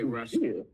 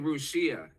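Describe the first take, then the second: First: The word is pronounced the usual English way. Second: The word is pronounced the way Russians say it. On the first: "they don't say Russia" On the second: "They say Russia"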